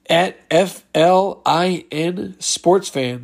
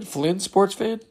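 First: "F L I N" read as single letters, slowly; slow letter-by-letter spelling; spelled out letter by letter. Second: "Flynn" said as one name, not as letters; letters run together into a name; read as a word. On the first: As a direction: spell out F L I N one letter at a time. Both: Shown as a demonstration. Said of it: "So Florida in sports fan".

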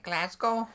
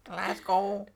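First: Demonstrated Scottish accent. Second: Put-on Scottish Glasgow; Scottish accent. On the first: Showing a friend the trick with a city name, Scottish accent. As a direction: say Glasgow like a Scot. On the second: Trading Scottish accent attempts with a friend. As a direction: say Glasgow like a local Scot. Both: Shown as a demonstration. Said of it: "to do a, a Scottish accent".

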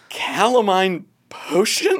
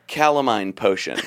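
First: Slow, puzzled, rising question; baffled repeat. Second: Said in the usual way. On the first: Retold or imitated. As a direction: repeat it in disbelief. Hypnotist stunned, repeating name.

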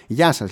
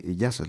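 First: Louder, set service-desk hello; stock clerk greeting. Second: Said in the usual way. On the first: Retold or imitated. Clerk at the courier desk greets her in the stock voice. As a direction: sound like every bank clerk. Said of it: "έχουνε την ίδια φωνή". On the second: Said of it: "λέω εγώ".

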